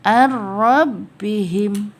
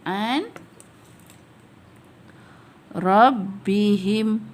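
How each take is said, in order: First: The n merges into the r without nasal hum. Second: The n is kept separate before the r.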